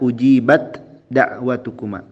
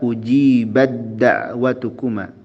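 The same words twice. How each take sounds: First: The t is pronounced before the d. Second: The t merges into the following d. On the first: The speaker calls it wrong. "Jangan dibaca ujibat da'watukuma. Taknya jangan dibaca" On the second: The speaker calls it right. "Maka kita baca ujibat da'watukuma. Bad da'watukuma. Dari ba langsung ke dal"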